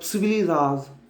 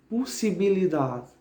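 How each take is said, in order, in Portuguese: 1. A palavra é dita rápida e reduzida. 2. A palavra é dita em ritmo cuidadoso e completo.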